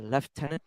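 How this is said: It is said in a British accent.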